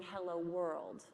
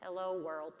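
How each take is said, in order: First: Slow, lower, even robot greeting; computer voice. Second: Lightly voiced robot, a bit lower; a hint of machine, evenly spoken; computer voice. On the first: Retold or imitated. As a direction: speak like a computer saying hello. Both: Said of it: "It's my best computer voice".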